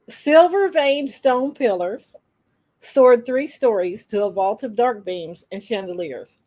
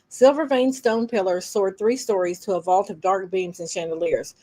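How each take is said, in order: First: The line is read at a slow pace. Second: The line is read at a fast pace. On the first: The speaker calls it right. "Slow it down" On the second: The speaker calls it wrong. "I need you to slow down"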